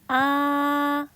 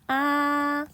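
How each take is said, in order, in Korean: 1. 처음부터 끝까지 높고 평평하게 유지돼요. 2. 처음부터 끝까지 높고 평평하게 유지돼요.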